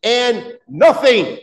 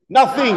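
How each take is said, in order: First: "nothing" slow, high and loud; stress on nothing. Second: "Nothing" higher and louder, a punched single word; emphatic nothing. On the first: Preacher leading the congregation, slow emphatic "nothing". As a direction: lean hard on "nothing". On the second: Preacher asks the church to repeat it, punching "Nothing". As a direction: hit "Nothing" hard for the crowd. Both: Shown as a demonstration. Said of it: "say nothing again".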